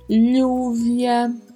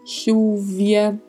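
First: The double L sounds like lh. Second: The double L sounds like sh. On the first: "um som de LH" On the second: "ou até um leve som de X"

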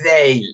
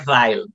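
First: The name is said the French way. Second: The name is said the English way.

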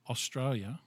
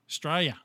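First: The word is said in full, all syllables. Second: The word is clipped to Straya.

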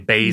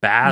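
First: The first vowel is a long 'ay'. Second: The first vowel is a short 'a'. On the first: Americans say it this way. "whereas we'd say Basel" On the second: Most British speakers say it this way. "Most people are saying Basel"

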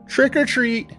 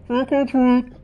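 First: It is said in a clear, normal voice. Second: It is said muffled, as if behind a mask.

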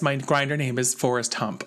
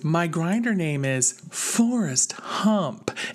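First: It is said in a plain, ordinary tone. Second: It is said with a playful, theatrical intonation. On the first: "this is normal Jim" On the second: "this is how you deliver the joke"

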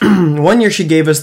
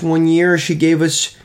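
First: It is said in the speaker's normal voice. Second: It is said in a put-on, unnatural voice.

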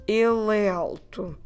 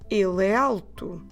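The two takes are said the same way.

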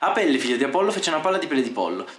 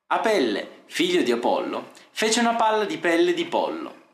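First: It is said fast. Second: It is said slowly.

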